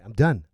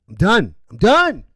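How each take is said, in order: First: Said in the usual way. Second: Loud, climbing higher each time; fed-up outburst. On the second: Real, not acted. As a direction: escalate sharply into a loud cry. Repeats it, escalating.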